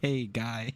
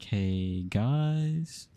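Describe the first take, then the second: First: The greeting is said quickly and flatly. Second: The greeting is drawn out slowly.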